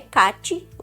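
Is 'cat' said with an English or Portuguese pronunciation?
Portuguese. It is said with a Portuguese vowel sound. The speaker calls it wrong. "não é cat no português"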